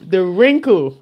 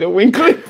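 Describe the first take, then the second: First: The r sound after the w is pronounced. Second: The r sound after the w is dropped. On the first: The speaker calls it right. "I said it right" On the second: The speaker calls it wrong. "I say the winkle"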